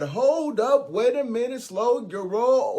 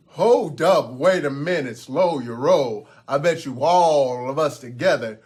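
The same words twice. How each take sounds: First: High-pitched, punchy interjection; goat brother butting in. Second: Big goat's challenge. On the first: Goat brother halts the troll to defend his side, butting in. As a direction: cut in high and drag out "roll". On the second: Grande Gruff bets the troll they can win, loud challenge. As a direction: halt him firmly, drawing out the words. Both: Acted.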